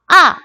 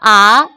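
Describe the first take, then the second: First: The pitch drops sharply from high to low. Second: The pitch rises from middle to high. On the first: "사성" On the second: "이 성"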